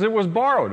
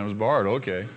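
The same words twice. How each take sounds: First: Higher, fretful worker's voice; worried man. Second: Lower, unbothered Elisha; calm prophet. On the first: Worker tells Elisha about the borrowed axe, fretful. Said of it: "He says". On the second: Elisha answers the worker, lower and calm. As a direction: settle it lower, calmly understanding. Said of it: "Oh, I understand". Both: Acted.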